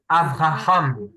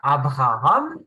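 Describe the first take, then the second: First: The second consonant is a V sound. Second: The second consonant is a B sound. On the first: The speaker calls it right. "mais on dit Avraham" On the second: The speaker calls it wrong. "on dit pas Abraham"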